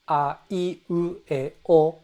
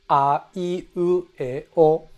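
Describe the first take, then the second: First: The vowels move up and down in a melody. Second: The vowels move up and down in a melody.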